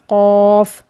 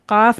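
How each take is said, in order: First: It starts with a heavy sound from the throat. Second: It starts with a light k sound. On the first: The speaker calls it right. "मोटा करके पढ़ना है और ये हलक की तरफ से निकलेगा" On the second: The speaker calls it wrong. "काफ नहीं कहना है"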